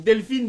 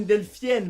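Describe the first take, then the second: First: Said in the usual way. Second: Delphine dit « Delphienne »; IN dit yen. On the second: Shown as a demonstration. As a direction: glisser vers YENNE à la fin de Delphine. (« Delphienne » à la québécoise) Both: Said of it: "Delphine devient Delphienne".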